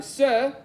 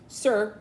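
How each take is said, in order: First: Raised, high-pitched call; louder and higher to get his attention. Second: Said in the usual way. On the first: A narrator's reading. Calling to an old man who didn't hear, louder. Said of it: "I said it louder". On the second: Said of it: "I said".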